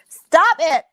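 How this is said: It is said tight, strangled in the throat.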